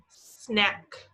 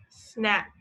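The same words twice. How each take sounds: First: "Snack" drawn out, final K stressed; sounded-out snack. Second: "Snack" said crisply, end K clear; sounded-out snack. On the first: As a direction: stretch "Snack" so the end K pops. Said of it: "put your finger back on the beginning". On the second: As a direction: say "Snack" and hit the last K. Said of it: "Did you hear the K sound in snack?". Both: Shown as a demonstration.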